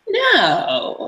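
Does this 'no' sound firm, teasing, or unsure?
teasing. A playful no that invites more. Keep going even though I say no. "yeah, tell me, even though I'm saying no"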